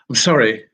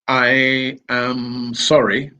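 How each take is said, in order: First: I am is contracted into one chunk. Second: I am is said as two full words. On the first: The speaker calls it right. "what we can teach is" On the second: The speaker calls it wrong. "instead of teaching"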